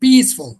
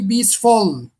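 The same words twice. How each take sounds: First: The stress is on the first syllable. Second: The stress is on the second syllable. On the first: The speaker calls it right. "The first syllable, peaceful" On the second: The speaker calls it wrong. "if the stress lies on the second syllable, it will, it will be peaceful"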